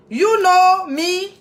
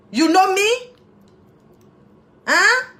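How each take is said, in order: First: Slow, stretched teasing "You know me?"; silly drawn-out. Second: Playful teasing question, higher; goofing around, teasing; silly playful. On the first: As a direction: drag it out playfully. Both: Pretend. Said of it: "j'arrête de faire ma fofolle".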